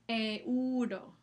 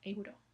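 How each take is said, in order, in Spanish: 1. La E y la U caen en sílabas separadas. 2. La E y la U se deslizan juntas en una sola sílaba. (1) "Separan las dos vocales en sílabas diferentes" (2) "la E y la semivocal U están juntas en la misma sílaba"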